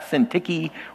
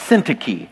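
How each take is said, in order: First: The stress falls on a later syllable. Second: The stress falls on the first syllable. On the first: The speaker calls it wrong. "It's not Syntyche" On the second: The speaker calls it right. "The emphasis is on the first syllable"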